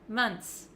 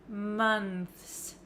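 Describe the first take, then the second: First: The th is dropped, ending like ts. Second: A clear th sound comes before the s. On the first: "What I do say is months" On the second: "If you want to say the T H sound clearly plus the S"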